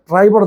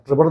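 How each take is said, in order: First: The first vowel is an 'eye' sound. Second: The first vowel is a short 'i' sound. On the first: The speaker calls it right. "ട്രൈബർ എന്നാ വണ്ടിയുടെ ശരിയായ ഉച്ചാരണം" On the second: The speaker calls it wrong. "ട്രിബർ എന്നല്ല"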